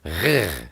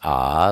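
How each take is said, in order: First: A rough, throaty sound from the back of the throat. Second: A smooth open vowel with no throat friction. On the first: "a guttural kind of a G" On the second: "sometimes it's pronounced ah, like Abba"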